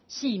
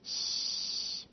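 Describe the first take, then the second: First: The syllable is said with a falling tone. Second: The syllable is said with a level tone. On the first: "它是第四声啊" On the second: "一个是平音啊"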